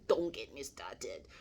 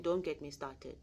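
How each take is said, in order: First: Slow, husky half-whisper; mock warning. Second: Said in the usual way. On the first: Speaker jokes to listeners about yelling at children, mock warning. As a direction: repeat it slowly as a joking warning, voice nearly gone. Joking repeat between laughs.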